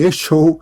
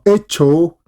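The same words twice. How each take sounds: First: The middle consonant is an sh sound. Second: The middle consonant is a ch sound. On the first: "ni echo" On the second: "no vas a pronunciar esto como echo"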